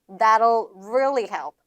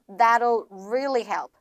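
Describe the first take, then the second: Both takes have the same delivery.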